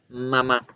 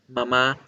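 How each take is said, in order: First: The opening M sound is held longer. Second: The opening M sound is very short. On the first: This sounds more natural to an English speaker. "debo decirlo un poquitico más largo" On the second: This is how it is said in Spanish. "la M muy cortica"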